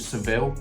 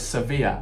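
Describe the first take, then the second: First: The name ends with an 'l' sound. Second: The name ends with a 'ya' sound. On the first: This is the English way of saying it. "in the English language, it's called Seville, or that's how I pronounce it" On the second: This is the local Spanish way of saying it. "that's how they pronounce it anyway"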